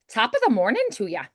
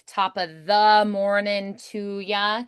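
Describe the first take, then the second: First: The small words are rushed through quickly. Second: The small words are given full weight.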